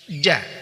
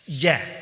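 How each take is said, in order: Both takes have the same delivery.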